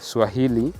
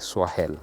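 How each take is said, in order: First: The word ends with two syllables, 'hili'. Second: The word ends with a short 'el' syllable. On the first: This is how the local coastal people said it. "instead of Swahel, they used to call them Swahili" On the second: This is how the Arabs said it. "they used to to pronounce it Swahel, not Swahili"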